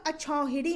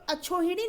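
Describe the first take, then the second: First: अछौहिड़ी with slow open "au"; correct अछौहिड़ी. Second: अछोहिड़ी with close "o" in छो; mispronounced अछोहिड़ी. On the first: Teacher gives the right form, अछौहिड़ी with chhau, slowly. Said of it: "अछौहिड़ी होता है". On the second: Teacher rejects the wrong form, अछोहिड़ी with chho. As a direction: round छो in अछोहिड़ी. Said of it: "अछोहिड़ी नहीं होता". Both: Shown as a demonstration.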